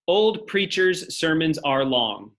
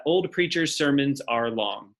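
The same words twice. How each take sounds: First: Put-on slow "Old preachers' sermons are long", each word weighted; teacher's slow, stressed memory phrase; slow, stressed mnemonic. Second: Said in the usual way. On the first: Shown as a demonstration. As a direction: spell out the mnemonic slowly for students to remember. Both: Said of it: "That's how you can remember that".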